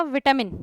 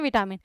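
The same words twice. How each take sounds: First: विटामिन with a reduced middle vowel, VIT-uh-min; English pronunciation. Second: विटामिन said the Hindi way, full clear 'aa': vi-TAA-min; Hindi pronunciation. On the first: Teacher showing the class the English way to say विटामिन. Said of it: "English में इसका pronunciation कैसा". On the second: Teacher showing the class the Hindi way to say विटामिन. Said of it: "Hindi में भी क्या बोलते हैं". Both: Shown as a demonstration.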